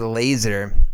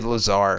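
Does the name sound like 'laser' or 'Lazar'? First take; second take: laser; Lazar. First: The name sounds like the word laser. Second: The name is said as Lazar. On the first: The speaker calls it wrong. "I want to say laser, but that's not how you pronounce it" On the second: The speaker calls it right. "But it's actually Lazar"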